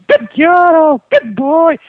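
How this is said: It is said in a high-pitched voice.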